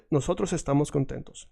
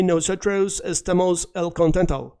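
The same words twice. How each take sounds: First: Said in the usual way. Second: The mistaken "Nosotros estamos el contento" with an English r and a flat "estemos"; wrong version. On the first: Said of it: "No, nosotros". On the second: Shown as a demonstration. A teacher showing students the wrong way to say it. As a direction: say "Nosotros estamos el contento" as a learner's error, with English-sounding vowels. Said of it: "Don't say".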